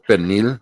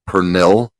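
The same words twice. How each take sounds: First: The word is said the native Puerto Rican way. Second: The word is sounded out as it is spelled. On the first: "which is the proper way to spell it, uh, pronounce it" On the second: "I want to pronounce it phonetically"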